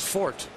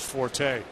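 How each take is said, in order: First: The word is said with one syllable. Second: The word is said with two syllables. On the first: The speaker calls it right. "or his fort" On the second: The speaker calls it wrong. "I had said forte"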